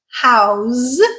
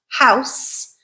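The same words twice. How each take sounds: First: The word ends with a voiced z sound. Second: The word ends with an unvoiced s sound. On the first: The word is used as a verb. "house with a z, which is a voiced sound, and it transforms into a verb" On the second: The word is used as a noun. "house with a s, which is an unvoiced sound, and that is a noun"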